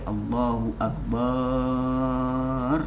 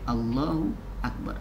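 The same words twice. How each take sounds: First: The vowel after b in akbar is drawn out. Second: The vowel after b in akbar is short. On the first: The speaker calls it wrong. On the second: The speaker calls it right.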